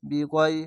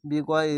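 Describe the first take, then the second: No difference in how they are said.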